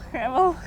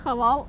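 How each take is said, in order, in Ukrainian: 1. Голосні звучать як 'е', як у 'hevel'. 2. Голосні звучать як 'а', як у 'havalʼ'. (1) "а хевел" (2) "правильно казати не хавал"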